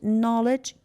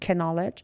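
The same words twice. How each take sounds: First: The K sound is silent. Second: The K sound is pronounced. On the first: The speaker calls it right. "K is silent" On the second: The speaker calls it wrong. "We don't say it knowledge"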